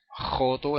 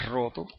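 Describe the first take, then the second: First: The R is rasped at the back of the throat. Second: The R is trilled with the tongue tip. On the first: "Decir joto en vez de roto" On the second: "en vez de"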